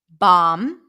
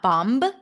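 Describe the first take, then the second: First: The word ends on M with no B sound. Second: The word ends with an audible B sound. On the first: The speaker calls it right. "the B is not pronounced" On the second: The speaker calls it wrong. "not bomb"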